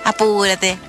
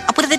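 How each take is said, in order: First: It is said slowly, with melodic intonation. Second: It is said quickly, with flat intonation. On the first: Communication is warm and unhurried. The speaker calls it right. "el tonito chileno nuestro" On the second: Communication is hurried and cold. The speaker calls it wrong. "Y todo rapidito"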